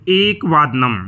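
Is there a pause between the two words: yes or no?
no. The two words are joined without a pause.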